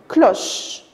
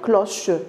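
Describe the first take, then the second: First: The word ends on the ch sound. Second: A vowel is sounded after the final ch. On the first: The speaker calls it right. "vous n'allez pas la prononcer à la fin" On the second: The speaker calls it wrong. "On ne va pas dire cloche"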